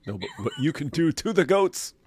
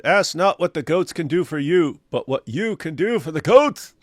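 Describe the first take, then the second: First: Laughing while correcting; laughing punchline. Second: Said in the usual way. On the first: Real, not acted. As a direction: deliver the twist through a laugh. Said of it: "corrects with a laugh".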